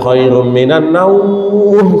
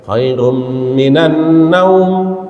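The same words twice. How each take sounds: First: The final word naum is drawn out long. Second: The final word naum is said short. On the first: "yang panjang tidurnya gitu" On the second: "naumnya itu pendek"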